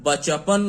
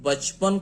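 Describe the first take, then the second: First: A vowel follows the ch; three syllables. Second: The ch has no vowel after it; two syllables. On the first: The speaker calls it wrong. "बचपन नहीं कहते हैं" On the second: The speaker calls it right. "बचपन कहते हैं"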